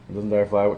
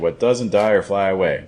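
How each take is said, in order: First: It is said quickly, with the words linked. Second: It is said at a slow, even pace.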